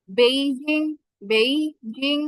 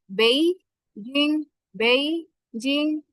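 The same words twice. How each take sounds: First: বেইজিং with an English-style rising end; বেইজিং with the end going up, the wrong way; বেইজিং said with a rise; wrong tone demo. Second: বেইজিং slow, with the tone going down; বেইজিং drawn out, with the tone falling; correct tone demo. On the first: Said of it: "not বেইজিং". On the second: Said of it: "আমাদের টোনটা নিচে নামবে". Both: Shown as a demonstration.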